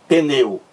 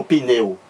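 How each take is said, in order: First: "pneu" said as "peneu", with an E between P and N; E inserted after P. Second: "pneu" said as "pineu", with an I between P and N; I inserted after P. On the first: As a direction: put a clear E after the P in "pneu". ("pneu" com um E entre o P e o N) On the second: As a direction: put an I sound after the P in "pneu". ("pneu" com um I entre o P e o N) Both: Shown as a demonstration. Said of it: "Um I e um E aqui".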